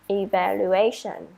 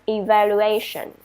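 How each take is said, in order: No difference in how they are said.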